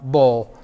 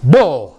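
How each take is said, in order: First: The word is said flatly without emphasis. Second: The word is said loudly and emphatically. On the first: The speaker calls it wrong. "not bull" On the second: The speaker calls it right. "You got to be emphatic"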